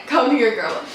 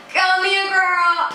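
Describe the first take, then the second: First: Said in the usual way. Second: High, drawn-out imitation of a guy beckoning; imitated beckoning guy. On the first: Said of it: "he didn't say". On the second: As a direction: mimic him calling her over, stretched on one high note. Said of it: "he pulls his arms out and he's just like".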